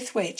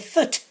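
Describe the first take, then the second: First: The word is said in full, with a long vowel. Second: The word is shortened to a clipped, reduced syllable. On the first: This is how people from elsewhere say it. The speaker calls it wrong. "you don't say thwaite" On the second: This is how local people say it. The speaker calls it right. "if you're local, you say thut"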